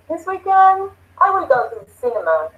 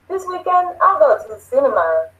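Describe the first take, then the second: First: The word will is said in full. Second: The word will is contracted onto I.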